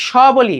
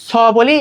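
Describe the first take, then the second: First: স said as "sh"; palatal sh sound. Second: স said as a sharp English "s"; hissed s sound. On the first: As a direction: say স like তালব্য শ, "sho". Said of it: "maximum time সটাকে কি নিব". (স-এর উচ্চারণ তালব্য শ-এর মতো) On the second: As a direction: say স with the tongue at the teeth, as "s". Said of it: "দন্ত স এর উচ্চারণটা কি". (স-এর উচ্চারণ ইংরেজি s-এর মতো দন্ত্য) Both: Shown as a demonstration.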